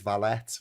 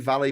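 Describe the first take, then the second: First: The final t is pronounced. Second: The final t is silent. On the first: The speaker calls it wrong. "We pronounce the T" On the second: The speaker calls it right. "that's actually the correct way of pronouncing it"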